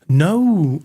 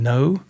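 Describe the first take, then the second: First: The word is drawn out into two syllables. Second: The word is said as one short syllable. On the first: "like Noah, Noah" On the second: "here's like one syllable words. Instead of saying no"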